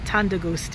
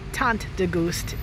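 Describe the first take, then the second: First: The T at the end of tant is dropped. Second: The T at the end of tant is pronounced. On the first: The speaker calls it right. "is correct" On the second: The speaker calls it wrong. "it sounds silly"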